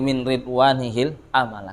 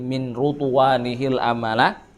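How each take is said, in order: First: The first vowel of the word is i. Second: The first vowel of the word is u. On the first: "yang mengkasrahkan" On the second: "ada yang mendomahkan ra"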